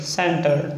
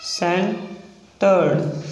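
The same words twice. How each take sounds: First: Said in the usual way. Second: सेंटर्ड drawn out very slowly; slow demo of सेंटर्ड. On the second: Shown as a demonstration. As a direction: stretch out सेंटर्ड. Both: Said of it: "next है सेंटर्ड".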